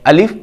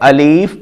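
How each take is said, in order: First: The vowel after the l is short. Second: The vowel after the l is long. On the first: The speaker calls it right. "अलिफ पढ़ना दुरुस्त है" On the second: The speaker calls it wrong. "लाम को आगे या लगाकर लंबा कर देते हैं जो कि गलत है"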